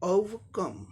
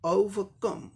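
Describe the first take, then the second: The two takes are said the same way.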